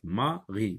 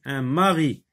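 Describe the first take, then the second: First: "mari" in two quiet beats, ma, ri; split into syllables. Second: Said in the usual way. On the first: Shown as a demonstration. Teacher shows two syllables, "mari" split ma - ri. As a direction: separate "mari" with a small gap before "ri". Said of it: "deux syllabes". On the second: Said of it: "Je lis des mots".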